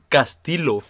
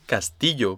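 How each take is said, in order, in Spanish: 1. El nombre se pronuncia con pronunciación alemana. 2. El nombre se pronuncia con pronunciación española. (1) "Tú tienes que decir Castillo, porque si no, no te entendían" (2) "esa es la pronunciación en español"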